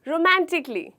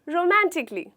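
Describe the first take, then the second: The two takes are said the same way.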